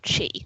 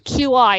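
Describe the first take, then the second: First: The word is said as one syllable. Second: The word is spelled out as two letters. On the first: This is the actual pronunciation. "Even though we all know it's chi" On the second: This is how Scrabble players say it. "that's why we say Q I"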